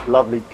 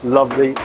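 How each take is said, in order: Both takes have the same delivery.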